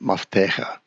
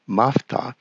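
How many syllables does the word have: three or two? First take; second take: three; two. First: The word is said with three syllables. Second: The word is said with two syllables. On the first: The speaker calls it right. "should actually be pronounced Maftecha" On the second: The speaker calls it wrong. "his pronunciation is a little bit off"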